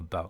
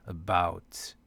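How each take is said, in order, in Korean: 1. 첫 번째 모음은 약하고 편안한 슈와(schwa)예요. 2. 첫 번째 모음은 힘 있고 강하게 발음돼요. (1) "아니라 about" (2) "힘이 about이 아니라"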